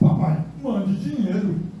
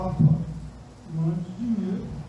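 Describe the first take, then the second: First: It is read in an irritated, indignant tone. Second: It is read in a soft, pleading tone. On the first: The son is being cheeky in demanding money. "agora que esse menino é abusado aqui" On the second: The son is in need and asking for help. "não, querido"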